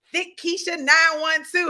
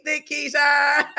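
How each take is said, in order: First: Said in the usual way. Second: Loud drawn-out call. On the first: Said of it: "Hey, Thick Keisha". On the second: Real, not acted. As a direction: call the name out loud and slow.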